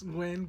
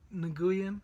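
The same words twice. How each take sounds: First: The name is said like Gwen. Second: The name is not said like Gwen. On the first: The speaker calls it right. "I know it's Nguyen ... there were Gwens in my classroom" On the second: The speaker calls it wrong. "I know it's not Nguyen"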